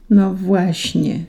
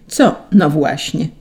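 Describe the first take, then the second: First: Slow, drawn-out hesitant answer; stall, letting the words sink away; uncertain. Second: Said in the usual way. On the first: A narrator's reading. An angel admitting trouble to Saint Peter, slow uncertainty. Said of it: "Anioł chrząknął niepewnie".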